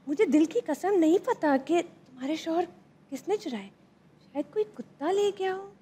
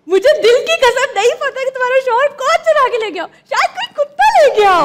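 First: It is said in a curious, questioning tone. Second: It is said joyfully, like sharing good news.

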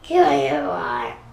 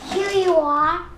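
First: It is said in a monster voice. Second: It is said in a normal voice.

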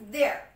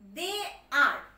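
First: The two words merge into one syllable. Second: Two separate words are said in full. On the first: "it's about the contracted form, their apostrophe. So we will pronounce like this" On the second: "If it would be the full form that time, we would say like this"

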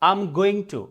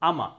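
First: Going to is pronounced in full. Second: Going to is reduced into one short syllable.

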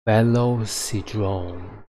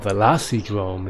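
First: The name is said at a slower pace. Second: The name is said at a faster pace.

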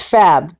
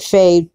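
First: The first syllable sounds like 'fab'. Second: The first syllable sounds like 'fade'. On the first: This is how the channel owner says it. "the channel person says it as Fabbed" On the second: This is how the spelling suggests it is read. "I would have said Fade"

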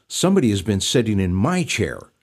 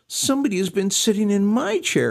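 First: It is said in a grumbling mutter. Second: It is said in a small doleful whine.

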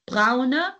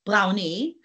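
First: The word ends in a weak 'uh' vowel. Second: The word ends in an 'ee' vowel. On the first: The speaker calls it right. "can everyone see the E at the end of braune? We've had braune" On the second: The speaker calls it wrong. "We're not going grüni, graui, brauni"

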